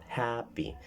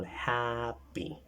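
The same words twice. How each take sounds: First: Happy repeated with hap stressed. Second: Happy with the first syllable hap stressed. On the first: Teacher repeats happy for the class, stress on hap. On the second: Teacher shows students where happy is stressed. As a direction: put the weight on hap in happy. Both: Shown as a demonstration. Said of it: "Hap, the first, uh, sound".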